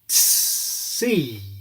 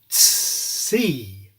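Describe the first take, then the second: First: A long, exaggerated S follows the T. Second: The same.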